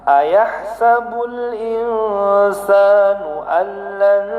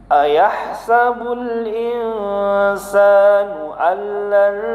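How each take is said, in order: Both takes have the same delivery.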